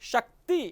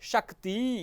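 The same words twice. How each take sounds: First: The final vowel is held short. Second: The final vowel is held long. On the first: The speaker calls it right. "શક્તિ આવું ઉચ્ચારણ કરીએ" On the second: The speaker calls it wrong. "દીર્ઘ ઉચ્ચારણ કરી બેસીએ"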